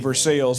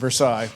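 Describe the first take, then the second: First: The name is pronounced the local Indiana way. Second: The name is pronounced the French way. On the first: "we say Versailles" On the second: "rather than Versailles"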